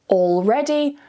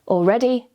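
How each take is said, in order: First: The L sound is pronounced clearly. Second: The L sound is left out. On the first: This suits slow, careful or formal speech. "you'll want to pronounce the L quite clearly" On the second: This suits fast, casual everyday conversation. "relax a little and remove the L"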